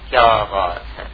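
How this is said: It is said in an amazed, exclaiming tone. The speaker is expressing wonder, not asking. "یہ میرا لہجہ بتا رہا ہے کہ اب کوئی حیرت کا اظہار ہو رہا ہے"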